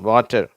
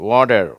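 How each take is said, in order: First: The middle consonant is a clear t sound. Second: The middle consonant sounds like a d. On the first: This is how British speakers say it. "கடைசியில் வர இந்த ஆர் உச்சரிக்கிறதே இல்லை" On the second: This is how American speakers say it. "அந்த டீ கூட டீ மாதிரி உச்சரிப்பாங்க"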